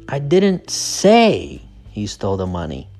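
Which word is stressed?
say. The stress is on the word 'say'. The speaker only suggested it. "So the stress is on say"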